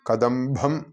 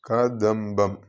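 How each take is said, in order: First: The b sound is breathy and heavy. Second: The b sound is plain and light. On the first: The speaker calls it wrong. "കദംബം എന്നായി പോകരുത്" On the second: The speaker calls it right. "ഇവിടെ ബാലന്റെ ബായാണ്"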